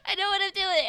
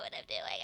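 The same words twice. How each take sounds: First: High-pitched loud, half crying; high loud insistence. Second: Much lower quiet deadpan; low flat insistence. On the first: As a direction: squeal it defensively. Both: Shown as a demonstration. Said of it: "same words said again".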